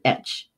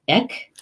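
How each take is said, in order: First: The word ends in a soft ch sound. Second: The word ends in a hard k sound. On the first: "Or is it etch?" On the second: "Is it ek?"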